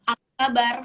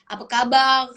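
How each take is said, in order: First: The final R is said the standard Indonesian way. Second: The final R is said the Malay way. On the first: The speaker calls it wrong. "Tadi kan aku bilang apa" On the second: The speaker calls it right. "Harusnya tuh kayak"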